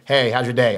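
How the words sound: It sounds dutiful and reluctant.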